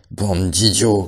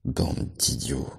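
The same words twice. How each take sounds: First: Loud furious «Bande d'idiots!»; angry shout. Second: Slow, whispered «Bande d'idiots!»; hushed scold. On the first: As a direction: bark «Bande d'idiots!» at the herd. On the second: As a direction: hiss «Bande d'idiots!» under breath. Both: A narrator's reading. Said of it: "cria Benjamin".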